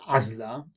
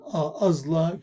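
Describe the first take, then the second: First: The first consonant is said plainly, without emphasis. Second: The first consonant is said thick and emphasized. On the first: The speaker calls it wrong. "لا نقول عزلة" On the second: The speaker calls it right. "انظروا كيف نضخم العين"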